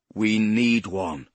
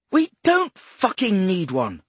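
First: Slow, stubborn, stress on need; persistent. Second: High, loud bark on don't. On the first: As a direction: insist slowly, leaning on need. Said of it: "Poe persisted". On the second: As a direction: snap back, hitting don't hard. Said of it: "she barked". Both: Acted.

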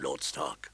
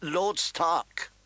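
First: Very low, soft disguised voice; low, secretive form of address; strange low voice. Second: Higher-pitched courteous greeting; mild, courtly politeness; polite. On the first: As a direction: sink deep and quiet, like a mysterious stranger. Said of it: "said in a strange, low voice". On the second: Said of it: "Varys said politely". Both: A narrator's reading.

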